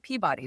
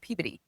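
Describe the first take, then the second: First: It is said with a general, non-local pronunciation. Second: It is said with a local Massachusetts pronunciation. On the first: The speaker calls it wrong. "they don't say Peabody" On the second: The speaker calls it right. "they say Peabody"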